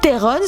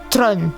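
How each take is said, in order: First: The name is said as 'Theron'. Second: The name is said as 'Tron'. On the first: The speaker calls it wrong. "ce n'est pas la véritable prononciation" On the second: The speaker calls it right. "se prononce en réalité Tron"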